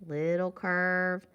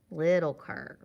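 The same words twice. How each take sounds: First: Slow "Little curve" with "curve" sustained; held tune. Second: "little curve" dropping low on "curve"; falling tune. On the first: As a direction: hold "curve" level, unfinished. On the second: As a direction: finish "little curve" downward. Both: Shown as a demonstration. Chanting along with drawn letter strokes.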